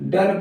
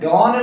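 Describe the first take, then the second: First: The vowel sounds like 'uh'. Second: The vowel sounds like 'aw'. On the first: The speaker calls it right. "बल्कि हम डन पढ़ते हैं" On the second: The speaker calls it wrong. "डॉन नहीं"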